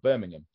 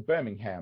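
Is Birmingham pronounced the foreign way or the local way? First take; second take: local; foreign. First: It is pronounced the way locals say it. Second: It is pronounced the way outsiders say it. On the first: This is how locals say the name. The speaker calls it right. "not Birmingham" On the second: This is how outsiders say the name. The speaker calls it wrong. "they say Birmingham"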